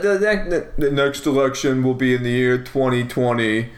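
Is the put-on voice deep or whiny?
deep. A deep, heavy put-on voice. The speaker calls it wrong. "you got kind of a Schwarzenegger thing going"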